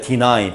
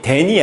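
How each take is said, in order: First: The word ends in an 'eye' sound. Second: The word ends in an 'ee' sound. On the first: The speaker calls it right. "deny 발음이" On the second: The speaker calls it wrong. "데니 아니에요"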